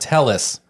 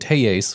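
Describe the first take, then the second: First: The name has a non-Hispanic pronunciation. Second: The name has a Hispanic pronunciation. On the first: This is how the man said his own name. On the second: This is how the name was said at trial.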